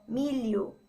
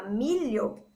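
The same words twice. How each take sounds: First: "milho" said like "mílio". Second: "milho" said with a palatal lh. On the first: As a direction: say "milho" with l plus i in place of lh. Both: Shown as a demonstration. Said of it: "parece que a gente falou milho".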